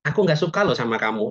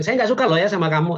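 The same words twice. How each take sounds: First: Mild anger. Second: A firmer, slightly raised mock scolding; angry. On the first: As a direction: say it gently, as if not really angry. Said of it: "tapi gayanya gini". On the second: Teacher showing Mas Aldo real anger, mildly acted. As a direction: push it like slamming the table, lightly. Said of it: "kalau marah kan bisa gebrak meja". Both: Shown as a demonstration.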